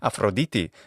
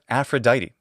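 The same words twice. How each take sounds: First: It is said in modern Greek pronunciation. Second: It is said in English pronunciation. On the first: "in the modern Greek pronunciation" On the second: "We call her Aphrodite in English"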